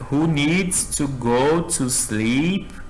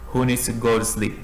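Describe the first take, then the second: First: The phrase is said at a slow pace. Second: The phrase is said at a fast pace.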